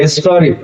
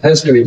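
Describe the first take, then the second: First: "हिस्ट्री" with a slight hold on its first syllable; stressed first syllable. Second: "हिस्ट्री" run together without a hold; said fluently. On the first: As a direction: lean briefly on the HIS of "हिस्ट्री". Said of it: "इस पे थोड़ा सा रुक रहे हैं". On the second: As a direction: say "हिस्ट्री" smoothly in one go. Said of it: "fluently बोल दे रहे हैं". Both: Shown as a demonstration.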